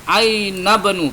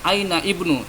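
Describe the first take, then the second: First: The words run together without the 'i' sound. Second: The 'i' of the second word is pronounced separately. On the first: The speaker calls it right. "ingat ini langsung disambung ya" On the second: The speaker calls it wrong.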